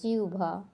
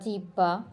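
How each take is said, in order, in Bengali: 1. মাঝের অংশটি 'u-bh' ধ্বনি দিয়ে উচ্চারিত হয়। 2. মাঝের অংশটি 'h-b' ধ্বনি দিয়ে উচ্চারিত হয়। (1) "হয় ব এর পরিবর্তে রস্য উ ভয়াকার" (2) "এটাকে আমরা বলে থাকি"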